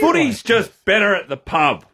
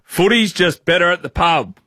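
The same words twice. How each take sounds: First: It is delivered with more energy and enthusiasm. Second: It is delivered flatly, with little energy.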